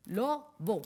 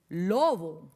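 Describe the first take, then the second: First: "Lobo" as two separate beats, Lo, bo; split into syllables. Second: Said in the usual way. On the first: Shown as a demonstration. Teacher separating the word for pupils, "Lobo" syllable by syllable. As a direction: break "Lobo" with a pause after Lo. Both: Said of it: "vamos a separarlas".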